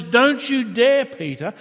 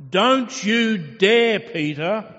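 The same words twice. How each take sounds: First: Loud and much higher, slowed on "dare"; stern warning. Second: Slow, loud and much higher, leaning on every word; emphatic warning. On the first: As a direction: cut him off with a loud rebuke. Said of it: "And God says". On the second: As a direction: warn him off with full weight. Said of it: "putting an emphasis on it". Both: Acted.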